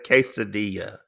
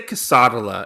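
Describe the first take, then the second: First: It is said with the standard pronunciation. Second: It is said with a Southern mispronunciation. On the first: The speaker calls it right. "instead of quesadilla" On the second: The speaker calls it wrong. "I say quesadilla instead of"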